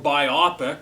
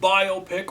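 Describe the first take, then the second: First: It is said rhyming with myopic. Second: It is said as bio plus pic. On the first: The speaker calls it wrong. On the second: The speaker calls it right.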